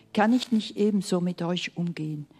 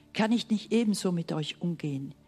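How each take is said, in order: The two takes are said the same way.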